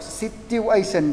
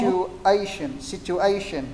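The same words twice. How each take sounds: First: Situation with "tiu" in place of "chu"; wrong TIÊU sound. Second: Situation with a clear "chu" in the middle. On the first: Retold or imitated. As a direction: mimic a learner's "situation" as si-tiu-ay-sun. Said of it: "Tiêu thì sai rồi". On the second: Shown as a demonstration. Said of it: "Em vẫn nghe ra chu nhiều hơn chiêu".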